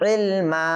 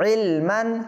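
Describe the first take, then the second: First: The word ends with a drawn-out a vowel. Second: The word ends with an n sound. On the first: The reader stops on this word. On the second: The reading continues past this word.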